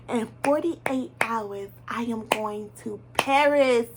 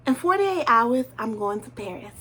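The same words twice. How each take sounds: First: "forty-eight" and "Paris" drawn out slowly, each word weighted; slow emphatic repeat. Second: Said in the usual way. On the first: Shown as a demonstration. To her viewers, repeating her big news, slow and emphatic. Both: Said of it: "Did you guys hear me?".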